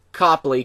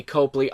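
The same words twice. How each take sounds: First: Copley said with an open "ah", KAH-plee; trying out Copley as KAH-plee; unsure pronunciation. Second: Copley said with a long "oh", KOH-plee; settling on Copley as KOH-plee; unsure pronunciation. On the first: Reviewer testing how to say the actor's name, KAH-plee. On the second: Reviewer unsure of the actor's name, KOH-plee. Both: Shown as a demonstration. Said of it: "Copley, I don't know".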